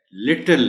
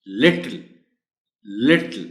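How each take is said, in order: First: लिटिल कठोर ट के साथ, गलत तरीका; wrong little. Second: लिटिल नरम ट के साथ, सही अंग्रेज़ी तरीका; correct little. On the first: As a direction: say लिटिल with a hard retroflex t. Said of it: "ये गलत है". (लिटिल गलत, सख़्त ट से) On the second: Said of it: "मैं पूरे वर्ड का प्रोनाउंसिएशन बोलता हूं". (लिटिल सही उच्चारण, नरम ट) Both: Shown as a demonstration.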